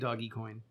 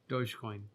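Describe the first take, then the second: First: The first part is two syllables, like 'doggy'. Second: The first part is one syllable, like 'doge'. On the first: The speaker calls it right. "So it's probably doggy coin" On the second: The speaker calls it wrong. "I was pronouncing it like it was a word"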